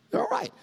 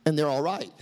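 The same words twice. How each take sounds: First: They're all right jumped up high in a squeak; squeaky high repeat. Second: Said in the usual way. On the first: Shown as a demonstration.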